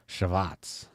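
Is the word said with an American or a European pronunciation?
European. It is said with a European pronunciation. "If you want to say it like a European"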